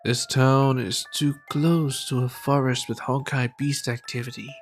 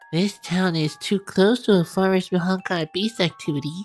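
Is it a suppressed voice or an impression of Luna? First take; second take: suppressed voice; Luna impression. First: It is said in a suppressed, muted voice. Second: It is said in an imitation of Luna's voice.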